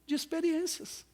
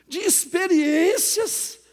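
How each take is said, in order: First: Said in the usual way. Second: "experiências" loud and drawn out; emphatic repeat. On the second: Real, not acted. Preacher driving the answer home to congregation, emphatic on "experiências". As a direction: stretch "experiências" slowly at raised volume.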